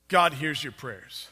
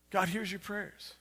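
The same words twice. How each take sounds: First: Said in the usual way. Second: Much softer, reverent restatement; hushed repeat. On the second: Real, not acted. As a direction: drop the volume to let it sink in. Preacher repeats key point softly.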